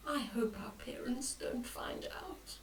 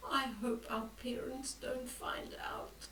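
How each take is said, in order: First: Whispered, much softer and lower; worried whisper. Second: Much softer, whispered fret; worried whisper. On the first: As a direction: hiss the worry very low. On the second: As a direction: worry under your breath. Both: Acted. Boy whispering his fear about parents finding out.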